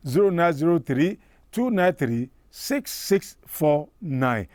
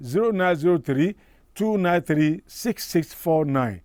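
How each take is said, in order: Both takes have the same delivery.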